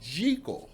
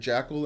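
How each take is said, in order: First: The first syllable sounds like 'geek'. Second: The first syllable sounds like 'jack'. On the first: The speaker calls it right. "it's really Jekyll, like G E E K E L" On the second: The speaker calls it wrong. "I've always understood it as Doctor Jackal and Mister Hyde, kind of like the animal jackal"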